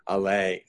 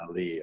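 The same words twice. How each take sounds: First: The word ends in an 'ay' sound. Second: The word ends in an 'ee' sound. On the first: The speaker calls it right. "it's an allee of trees" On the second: The speaker calls it wrong. "Not an allee of trees"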